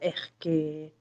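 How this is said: The s sound is swallowed into a breath. "а эхке; кубинцы вообще все глотают"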